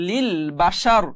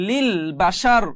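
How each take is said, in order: No difference in how they are said.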